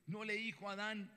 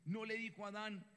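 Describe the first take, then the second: No difference in how they are said.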